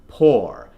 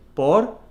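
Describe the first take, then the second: First: The R is not rolled. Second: The R is rolled. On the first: The speaker calls it right. "that nice strong or from the back of the neck" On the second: The speaker calls it wrong. "You really stress that R sound"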